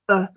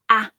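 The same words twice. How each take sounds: First: The word has a weak schwa vowel. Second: The word has a full vowel.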